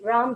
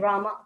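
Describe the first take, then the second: First: The word ends in a consonant sound. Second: The word ends in an 'a' vowel. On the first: This is the proper pronunciation. The speaker calls it right. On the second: This follows the spelling. The speaker calls it wrong.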